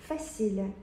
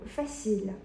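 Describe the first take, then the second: The two takes are said the same way.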